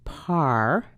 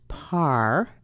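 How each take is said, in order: First: The syllable has a full, open 'ah' vowel. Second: The same.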